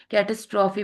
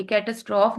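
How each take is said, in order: First: कैटास्ट्रॉफी with a clear final ee after the f; the right way, कैटास्ट्रॉफी with all four syllables; correct pronunciation. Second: कैटास्ट्रॉफ cut short, ending on the f with no final ee; the wrong way, कैटास्ट्रॉफ said without its ending; wrong pronunciation. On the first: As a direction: say कैटास्ट्रॉफी fully, ending on a long ee. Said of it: "कैटास्ट्रॉफी पढ़ना है". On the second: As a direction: say कैटास्ट्रॉफ clipped, dropping the last vowel. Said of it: "ये कैटास्ट्रॉफ नहीं पढ़ना है". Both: Shown as a demonstration.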